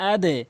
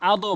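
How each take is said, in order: First: আদে bounced downward to a short "e"; correct qalqalah. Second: আদো with the bounce rounded to "o"; mistaken qalqalah. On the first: Teacher restating the right form, আদে with "e" bounce. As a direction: say আদে with a light "e" echo on the d. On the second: Teacher warning against the error, আদো with "o". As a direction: say আদো ending in a wrong "o" echo. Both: Shown as a demonstration. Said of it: "কখনোই আদো বলবো না".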